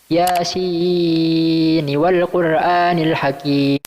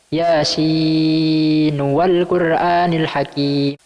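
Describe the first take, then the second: First: The n of Yasin is followed by i. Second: The n of Yasin is followed by u.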